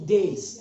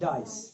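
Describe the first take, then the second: First: The vowel sounds like the one in 'day'. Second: The vowel sounds like the one in 'die'. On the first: The speaker calls it right. "This is डेस" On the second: The speaker calls it wrong. "This is not डाइस"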